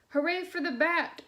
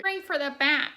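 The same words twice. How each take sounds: First: Bright shout, a bit higher; witch shouting. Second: Pinched nasal witch, loud and high; nasally witch voice. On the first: A narrator's reading. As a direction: call it out like a cheering witch. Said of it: "shouted the witch". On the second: Retold or imitated. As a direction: copy the cassette lady's nasal witch. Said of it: "like, a really nasally, really good witch voice".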